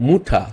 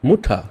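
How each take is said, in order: First: The first vowel sounds like 'oo'. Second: The same.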